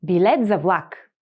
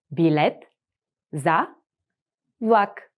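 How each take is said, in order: First: Said in the usual way. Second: Each word said apart with pauses. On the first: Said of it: "whole phrase model". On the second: Shown as a demonstration. Teacher spelling it out slowly for the class. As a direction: break it up word by word for the learner. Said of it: "split into words for repeating".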